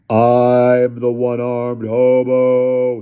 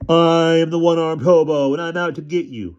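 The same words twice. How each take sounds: First: Very slow, loud drawn-out boom; bellowing. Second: Imitated hobo voice. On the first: Acted. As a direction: bellow it to terrify the boys. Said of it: "he bellowed". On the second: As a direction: ham up the monster voice to tease. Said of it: "I imitated how he sounded".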